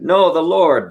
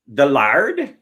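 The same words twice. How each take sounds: First: Said in the usual way. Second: Put-on "The lard?" in a pirate accent, lard with a broad ah, rising. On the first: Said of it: "they're like". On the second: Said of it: "you have to say "the lard" like a pirate".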